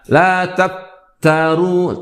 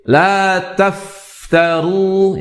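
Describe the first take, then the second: First: The f is held back with weak airflow. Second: The f is released with plenty of breathy air. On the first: The speaker calls it wrong. "jangan ditahan atau dilemahkan" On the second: The speaker calls it right.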